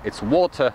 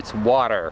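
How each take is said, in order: First: It is said with a British accent. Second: It is said with an American accent. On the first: "depending if you are from U K" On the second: "or from America"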